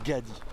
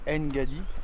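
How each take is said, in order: First: The name begins with a plain g sound. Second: The name begins with a nasal ng sound. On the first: The speaker calls it right. "ça se prononce Gadi" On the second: The speaker calls it wrong. "C'est pas Ngadi"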